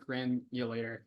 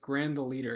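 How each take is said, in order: First: The name is run together as one word. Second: The name is said as three separate words. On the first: The speaker calls it wrong. "It's not Granulator" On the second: The speaker calls it right. "It's Grand the leader"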